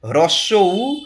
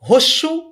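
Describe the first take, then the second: First: The two words are said fully and separately. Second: The two words are merged into one short word. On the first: The speaker calls it right. "কি হয়?" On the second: The speaker calls it wrong. "বলে কিচ্ছু হয় না"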